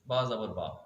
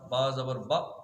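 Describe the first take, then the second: First: The final vowel lasts about one second. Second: The final vowel is cut off abruptly. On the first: The speaker calls it right. "दरमियानी एक second तक पढ़े" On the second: The speaker calls it wrong. "इसे यूं नहीं करना ... ये झटका देना होगा"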